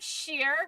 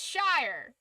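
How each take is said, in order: First: The word rhymes with 'ear'. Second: The word rhymes with 'fire'. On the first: The speaker calls it wrong. "It's not Sheer" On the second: The speaker calls it right. "It's Shire"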